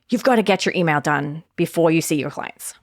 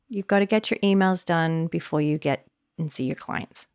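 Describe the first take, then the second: First: The tone is pushy, sharp and bossy. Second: The tone is soft, relaxed and kind. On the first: Pressure and urgency drive the task. The speaker calls it wrong. "I often use a tone which is like, you've got to write your email, like get going" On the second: The task is approached with ease and kindness. The speaker calls it right. "I had more space and I was like, okay, hun"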